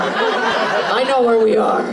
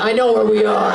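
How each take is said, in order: First: Slow, knowing repeat; teasing the crowd member, slowly. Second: Said in the usual way. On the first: Shown as a demonstration. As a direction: draw it out pointedly. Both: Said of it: "repeats the line".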